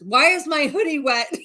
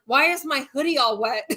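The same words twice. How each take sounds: First: Higher, louder, laughing through the quote; laughing imitation. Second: Higher, puzzled whimpering question; groggy husband. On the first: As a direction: mimic him while cracking up. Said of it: "And here he's just like". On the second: Retold or imitated. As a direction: imitate a teary man confused about his wet hoodie. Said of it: "he'd be like".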